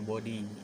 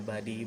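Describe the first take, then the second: First: The first vowel sounds like 'o'. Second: The first vowel sounds like 'a'. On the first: The speaker calls it wrong. "bukan body" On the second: The speaker calls it right. "O-nya kita eh, lupakan sejenak, jadi kita ubah jadi A gitu"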